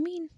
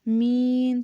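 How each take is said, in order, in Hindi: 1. स्वर छोटा और सादा है। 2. स्वर खींचकर लंबा बोला गया है। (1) "हम बोलते हैं मीन, सिंपली" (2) "मीन को मीन तो करके नहीं बोलते"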